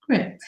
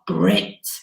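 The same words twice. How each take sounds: First: The word is said in an ordinary voice. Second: The word is said in a special put-on voice. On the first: "I've never heard you say grit normally" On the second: "I always have to say it in that voice"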